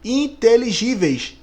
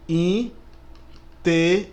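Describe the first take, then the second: First: Said in the usual way. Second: "Inteligíveis" very slowly split into syllables, a pause after each. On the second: Shown as a demonstration. ("Inteligíveis" bem devagar, sílaba por sílaba) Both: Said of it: "Vamos ver".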